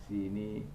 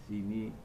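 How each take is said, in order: Both takes have the same delivery.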